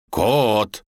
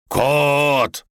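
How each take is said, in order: First: First call of a name. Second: Higher, louder, drawn-out call. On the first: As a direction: call up to someone out of sight. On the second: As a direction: stretch the name and call harder. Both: A narrator's reading. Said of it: "подбежал к дубу и позвал".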